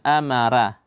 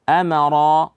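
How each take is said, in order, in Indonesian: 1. r dibaca tipis. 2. r dibaca tebal. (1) "Jangan amara" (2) "ra tebal, maka dibaca tebal"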